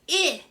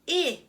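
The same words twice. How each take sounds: First: A short vowel, as at the start of 'it'. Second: A short vowel, as at the start of 'it'.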